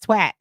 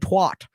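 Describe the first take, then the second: First: The vowel is an eh sound. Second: The vowel is not an eh sound. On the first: This is the Massachusetts way of saying it. "you have to say it with an eh" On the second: This is the speaker's own way of saying it. "because I was saying twat"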